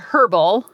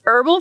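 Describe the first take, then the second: First: The word starts with a pronounced h sound. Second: The word starts with a silent h. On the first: The speaker calls it wrong. "I always want to say the H" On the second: The speaker calls it right. "but it's Herbal"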